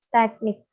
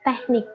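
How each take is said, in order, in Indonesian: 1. Konsonan sebelum n terdengar seperti k. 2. Konsonan sebelum n terdengar seperti h. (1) "Pelafalan yang benar ialah teknik, T E K N I K" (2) "Pelafalan yang salah, menggunakan H"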